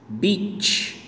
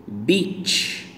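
No difference in how they are said.

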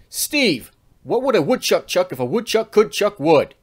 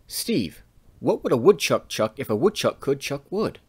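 First: It is spoken in a loud, energetic voice. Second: It is spoken in a soft, quiet voice. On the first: The listener is far away across the playground. "Notice how much more energy you had to use" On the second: The listener is close by. "That would be using a soft voice"

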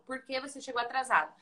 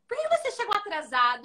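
First: The question is asked in a calm, even voice. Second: The question is asked in a harsh, raised voice. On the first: A neutral request for an explanation. The speaker calls it right. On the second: The speaker is attacking the listener. The speaker calls it wrong.

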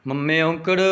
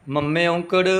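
No difference in how they are said.

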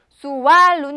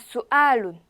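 First: A w sound joins the two vowels. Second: A glottal catch separates the two vowels. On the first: The speaker calls it wrong. "수왈룬이 아니라" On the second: The speaker calls it right. "수알룬이라고 발음해 주시면 돼요"

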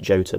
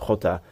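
First: It begins with an English j sound. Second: It begins with a throaty Spanish h sound. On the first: "you could pronounce it Jota" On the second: "being a student of Spanish, inevitably I end up pronouncing it Jota"

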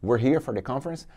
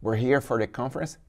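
First: We are is run together, quick and contracted. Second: We are is run together, quick and contracted.

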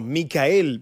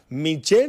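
First: The name is said with a k sound, Micael. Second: The name is said with a sh sound, Michelle. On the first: The speaker calls it wrong. "No, no" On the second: The speaker calls it right. "es Michelle"

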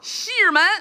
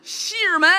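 The two takes are said the same way.

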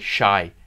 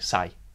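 First: The word begins with an sh sound. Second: The word begins with a plain s sound. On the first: "they don't say shy" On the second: "they say sai"

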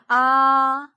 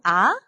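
First: The pitch stays high and level. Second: The pitch rises like a question.

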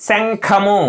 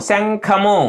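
The two takes are said the same way.

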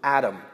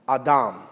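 First: The name is said the usual English way. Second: The name is said in a Hebrew-like way.

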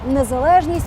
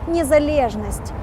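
First: It is said with a plain Ukrainian pronunciation. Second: It is said with a scornful Russian pronunciation. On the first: The word is used neutrally as its own term. "Українське слово" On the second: The word is mocked to belittle the idea of independence. "російське зневажливе"

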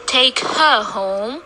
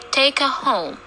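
First: The word 'her' is said in its full strong form with a clear h. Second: The word 'her' is said in a short weak form without the h. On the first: The speaker calls it wrong. "We don't say take her home" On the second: The speaker calls it right. "We say take her home"

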